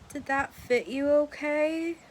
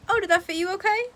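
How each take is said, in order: First: It sounds suspicious and judgmental, not like service. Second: It sounds friendly, like polite customer service.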